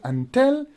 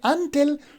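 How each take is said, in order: First: The stress is on the second syllable. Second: The stress is on the first syllable. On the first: The speaker calls it right. "when you say until, so you are actually stressing the second syllable" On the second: The speaker calls it wrong. "If you say until, so you are stressing the first syllable"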